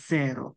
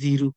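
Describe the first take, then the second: First: The first vowel sounds like 'eh'. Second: The first vowel sounds like 'ee'. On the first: The speaker calls it right. "এটা হবে জেরো" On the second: The speaker calls it wrong. "অনেকে বলে জিরো, না"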